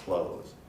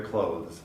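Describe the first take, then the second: First: Clothes as close, no th; relaxed everyday clothes without the th; casual clothes. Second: Clothes with the th clearly sounded; clothes, th distinct; careful clothes. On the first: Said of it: "most speakers will produce clothes". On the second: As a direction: keep the th in clothes. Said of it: "you may sometimes hear clothes". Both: Shown as a demonstration.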